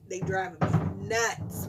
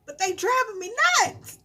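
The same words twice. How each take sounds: First: Lower, slow, deadpan restatement; slow resigned deadpan; flat repeat. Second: Higher, louder complaint; much higher exasperated cry. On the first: Repeated flatly. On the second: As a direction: throw up your hands. Exasperated about kids. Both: Real, not acted.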